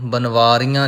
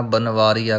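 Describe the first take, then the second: First: ਬਨਵਾਰੀਆਂ with a nasal final ā; nasalised ending. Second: ਬਨਵਾਰੀਆ with no nasal on final ā; oral vowel ending. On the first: Teacher showing the mistake to avoid, ਬਨਵਾਰੀਆਂ nasalised. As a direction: let the end of ਬਨਵਾਰੀਆਂ go nasal. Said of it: "ਨਹੀਂ ਕਹਿਣਾ". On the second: Teacher correcting learners, ਬਨਵਾਰੀਆ without nasal ending. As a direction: keep the end of ਬਨਵਾਰੀਆ open and oral. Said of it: "ਕਹਿਣਾ ਹੈ". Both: Shown as a demonstration.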